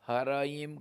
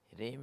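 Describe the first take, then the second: First: The cluster is split with an extra vowel. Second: The cluster is said together in one syllable. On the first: The speaker calls it wrong. "ह्रीम को हराइम कर नहीं करना" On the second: The speaker calls it right. "ह्रीम ही उच्चारण करना"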